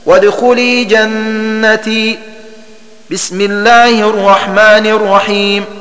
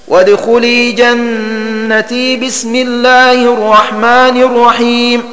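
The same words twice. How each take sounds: First: A pause comes after 'jannati' before 'bismillah'. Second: 'Jannati' runs straight into 'bismillah' without pausing. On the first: The speaker calls it right. "الوقف على آخر السورة وعلى البسملة هكذا" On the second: The speaker calls it wrong. "وصل آخر السورة بالبسملة مع الوقف عليها هكذا"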